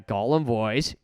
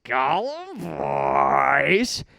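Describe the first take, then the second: First: Said in the usual way. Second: Slow, strained creature rasp; Gollum voice. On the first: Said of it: "only being able to do this voice". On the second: Shown as a demonstration. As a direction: hiss it like Gollum.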